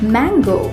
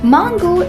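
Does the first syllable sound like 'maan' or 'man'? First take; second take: man; maan. First: The first syllable sounds like 'man'. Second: The first syllable does not sound like 'man'. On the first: The speaker calls it right. "पहले बोलें मैन, फिर बोलें गो" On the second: The speaker calls it wrong. "इसका गलत उच्चारण है"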